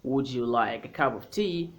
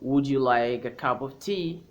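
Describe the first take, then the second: No difference in how they are said.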